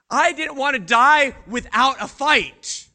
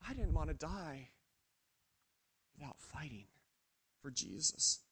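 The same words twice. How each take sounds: First: Louder and higher, fighting back the fear; defiant outcry. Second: Much softer and lower, nearly gone; hushed despair. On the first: Peter to the crowd, a defiant loud cry. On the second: Peter to himself, a hushed, despairing murmur. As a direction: let the words sink to a murmur. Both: Acted.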